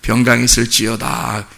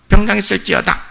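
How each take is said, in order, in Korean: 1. 장엄하고 위엄 있게 말해요. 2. 가볍고 경박하게 말해요.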